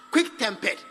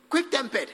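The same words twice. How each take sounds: The two takes are said the same way.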